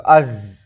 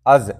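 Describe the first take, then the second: First: از with breath passing out after the z; از said with an open, airy z; ze sound. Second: از with the z stopped dead, no air; از said short and closed, no airflow; zaal sound. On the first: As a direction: let air run through the z of از. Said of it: "لیکن زے ہوگا تو از". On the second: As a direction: close off از with no breath after the z. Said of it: "جیسے زال ہوگا تو کہیں گے از". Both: Shown as a demonstration.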